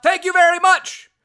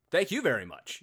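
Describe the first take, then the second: First: High, very loud imitated shout; big high-pitched holler; Jordan's yell. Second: Said in the usual way. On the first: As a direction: yell it out as a catchphrase. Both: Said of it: "when Jordan yells out".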